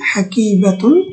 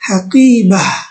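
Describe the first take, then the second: First: The word ends with a full atun ending. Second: The word ends with a final h sound. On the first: The word is said in its complete form. "শিক্ষার উদ্দেশ্যে আমি পুরোটাই বলতেছি।" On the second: The speaker is stopping on this word. "গোলতার উপরে যদি আমরা ওয়াকফ করি, তাহলে আমরা সেটা হা উচ্চারণ করব।"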